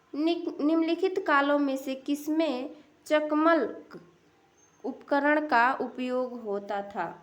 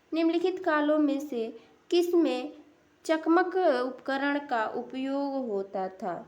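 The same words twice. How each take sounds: Both takes have the same delivery.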